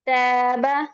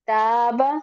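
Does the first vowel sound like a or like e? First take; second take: e; a. First: The first vowel is bent toward an e sound. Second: The first vowel is a clear a sound. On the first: The speaker calls it wrong. "ये जो है गलत अदायगी है" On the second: The speaker calls it right. "सही अदायगी"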